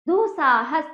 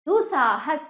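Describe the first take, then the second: No difference in how they are said.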